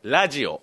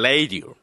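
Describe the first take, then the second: First: It is said in plain Japanese pronunciation. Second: It is said with an American English accent.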